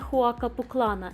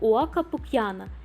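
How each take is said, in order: First: The double L sounds like an l. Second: The double L sounds like a y. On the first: The speaker calls it wrong. "ніяка не «Хуака Пуклана», як вам скаже TripAdvisor" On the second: The speaker calls it right. "вимовляється як «Уака Пук'яна»"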